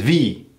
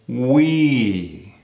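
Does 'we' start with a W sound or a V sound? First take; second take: V sound; W sound. First: It starts with a buzzing V sound. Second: It starts with a rounded W sound. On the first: The speaker calls it wrong. "Versus V" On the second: The speaker calls it right.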